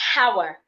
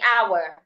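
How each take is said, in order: First: It begins with an h sound. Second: It begins with a vowel sound. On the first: The speaker calls it wrong. "I shouldn't say hour" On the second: The speaker calls it right. "I would just say hour"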